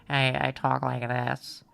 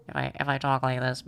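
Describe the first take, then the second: First: Lower, slow, lightly pinched smoker voice; a hint of an old secretary; mock smoker voice. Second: Lower, lightly pinched smoker voice; a touch of an old secretary; mock smoker voice. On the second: Streamer testing a smoker voice for chat, lower and lightly pinched. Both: Shown as a demonstration. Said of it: "I don't know how to do the smoker voice".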